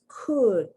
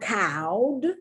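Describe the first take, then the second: First: The vowel is a short u sound. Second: The vowel sounds like the ow in cow. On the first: The speaker calls it right. "the short U sound" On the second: The speaker calls it wrong. "It's not"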